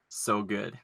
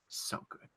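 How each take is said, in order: First: Quiet quote. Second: Whispered, breathless; whispered quote. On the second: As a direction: whisper it with relish. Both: Acted. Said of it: "One of my favorite lines".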